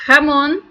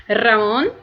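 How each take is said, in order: First: "Ramon" with a throaty h at the start; "Ramon" said like jamón; ham, jamón. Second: "Ramon" with a trilled r at the start; "Ramon" with a rolled r, as the name; name Ramón. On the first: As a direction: scrape the h at the back of the throat in "Ramon". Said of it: "eu estaria pedindo um presunto na padaria". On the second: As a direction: roll the opening r of "Ramon". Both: Shown as a demonstration.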